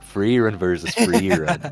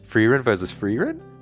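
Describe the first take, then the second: First: It sounds excited, like an exclamation. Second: It sounds puzzled, like a question. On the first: The speaker is thrilled by the fight. "exclamation mark" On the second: The speaker is unsure what is happening. "question mark"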